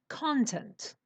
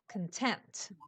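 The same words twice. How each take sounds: First: The stress is on the first syllable. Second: The stress is on the second syllable. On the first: It is used as a noun. "It goes to the beginning and it becomes content" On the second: It describes someone pleased with what they have. "The stress is on the uh, middle uh, syllable"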